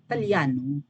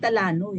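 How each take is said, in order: First: The name is said with a 'y' glide. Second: The name is said without a 'y' glide. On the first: The speaker calls it right. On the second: The speaker calls it wrong. "Hindi Talano eh"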